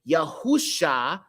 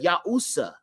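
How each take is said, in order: First: The consonant before the last vowel is 'sh'. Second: The consonant before the last vowel is 's'. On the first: The speaker calls it right. "That's why we say Yahusha" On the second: The speaker calls it wrong. "instead of Yahusa"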